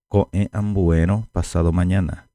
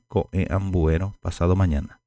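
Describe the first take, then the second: No difference in how they are said.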